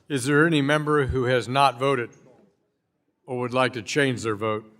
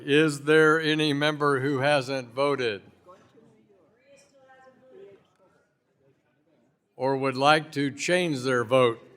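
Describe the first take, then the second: First: The question is spoken at a normal pace. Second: The question is spoken very slowly.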